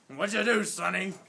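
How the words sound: It is said in a gruff Marine sergeant's voice.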